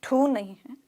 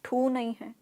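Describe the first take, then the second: Both takes have the same delivery.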